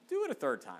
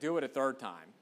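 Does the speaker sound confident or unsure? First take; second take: unsure; confident. First: It sounds hesitant and hopeful, unsure of itself. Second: It sounds firm and certain, fully assured. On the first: The speaker hopes it works but doubts it. The speaker calls it wrong. "Maybe, hopefully this will work" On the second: The speaker knows what will happen next. The speaker calls it right. "I think he's saying like"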